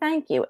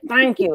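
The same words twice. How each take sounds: First: It is said in an easy, sincere tone. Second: It is said in a begrudging, reluctant tone.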